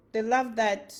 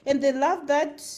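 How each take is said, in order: First: Said in the usual way. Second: Louder, in a Nigerian accent. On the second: Shown as a demonstration. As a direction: put on a Nigerian accent for the phrase. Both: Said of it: "they love that in my Nigerian accent".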